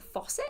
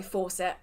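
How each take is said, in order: First: Faucet without the r, American style; attempted American faucet. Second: Said in the usual way. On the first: Shown as a demonstration. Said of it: "do, do people say, like". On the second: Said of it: "no, I'm sorry".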